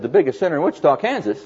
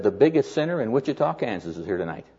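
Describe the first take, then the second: First: Retold disbelief, pitched up to a high questioning end; incredulous echo. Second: Said in the usual way. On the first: Preacher questioning the man's news about the sinner, incredulous echo.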